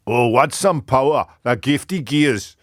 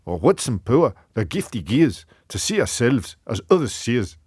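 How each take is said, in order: First: Bigger second stab at a Scottish accent. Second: Earnest attempt at a Scottish accent. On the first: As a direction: declaim Burns in a put-on Scottish accent, slowing at the end. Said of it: "I'll try again". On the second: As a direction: recite Burns as a Scot would. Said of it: "I'll try and do a Scottish one". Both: Shown as a demonstration.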